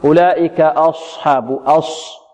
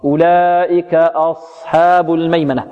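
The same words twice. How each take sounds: First: Wrong-way demo of أصحاب with the صاد over-shaped; نطق خاطئ. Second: Slow measured recitation with a clean صاد in أصحاب; نطق صحيح. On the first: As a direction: draw out أص- in أصحاب slowly, as a mistaken reciter does. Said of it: "البعض يقول، ... خطأ". (تلاوة متأنية تُظهر الخطأ في صاد أصحاب) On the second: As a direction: recite أصحاب correctly, without rounding the lips on the صاد. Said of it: "خطأ". (تلاوة متأنية صحيحة لصاد أصحاب) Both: Shown as a demonstration.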